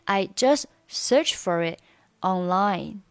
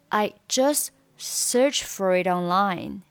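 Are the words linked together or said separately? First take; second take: separately; linked. First: Each word is pronounced separately, without linking. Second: The words run together, linked into each other. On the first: "你可以选择单独去读" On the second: "你也可以选择连读"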